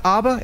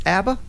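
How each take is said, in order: First: Abba as AH-ba, with an open back vowel; rejected pronunciation. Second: Abba as AB-ba, with the a of cat; corrected pronunciation. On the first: Host checking what it is not, saying abba as AH-ba. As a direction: say abba with the a of father, rising at the end. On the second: Host checking the correction, saying abba as AB-ba with questioning rise. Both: Shown as a demonstration. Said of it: "It's not abba, it's abba".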